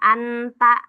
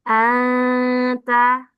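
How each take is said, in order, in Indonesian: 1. Bunyi n diucapkan penuh dan jelas. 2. Bunyi n samar, berada di antara n dan dengung. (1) "Bukan juga dibaca jelas nunnya" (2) "ikhfa itu samar, samar-samar ya"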